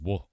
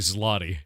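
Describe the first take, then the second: First: It is said as 'zwo', without an L sound. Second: It is said as 'zlotty', with an L sound. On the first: "It looks like zloty, but it's zwo because Polish" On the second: "In American, in English, it'd be Zloty"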